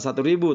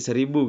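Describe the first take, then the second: First: The number is said as two full words. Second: The number is said as one contracted word. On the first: The speaker calls it wrong. "satu ribu juga betul tetapi pengucapan yang tidak lazim" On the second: The speaker calls it right. "Bukan satu ribu tapi seribu"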